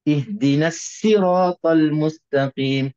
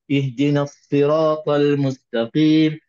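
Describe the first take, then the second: First: The s in sirat is a plain s sound. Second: The s in sirat is a light emphatic sound. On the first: "sad ini boleh jadikan sin" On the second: "Mudah aja disebut"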